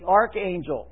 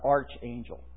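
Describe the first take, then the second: First: The first part sounds like 'ark' with a k. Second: The first part sounds like 'arch' with a ch. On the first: It means the first or highest angel. The speaker calls it right. "The archangel" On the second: It sounds like the golden arches of McDonald's. The speaker calls it wrong. "it's not archangel. That's the angel of McDonald's"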